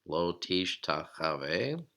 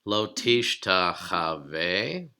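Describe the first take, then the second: First: Lo tishtachave repeated slowly and a bit softer, rising on tishtachave; slow Hebrew repeat. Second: Lo tishtachave spoken very slowly, each syllable drawn out, rising on lo; slow Hebrew demo. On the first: Teacher repeats the Hebrew word slowly so students catch it. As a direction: say lo tishtachave again, slow and careful. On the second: Teacher models the long Hebrew word slowly for students. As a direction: sound out lo tishtachave slowly for the class. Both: Shown as a demonstration. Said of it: "consider this really long Hebrew word".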